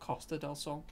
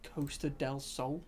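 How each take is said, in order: First: The first vowel is a short 'o' sound. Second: The first vowel is a long 'oh' sound. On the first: "as opposed to an O" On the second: "It's an O H noise"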